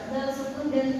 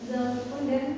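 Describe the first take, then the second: The two takes are said the same way.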